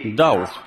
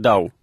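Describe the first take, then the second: First: The name ends with a 'kh' sound. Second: The name ends on the vowel sound. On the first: This is the correct German form of the name. "правильно его фамилия, он немец" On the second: This is the speaker's simplified habit. "а я произношу только Дау"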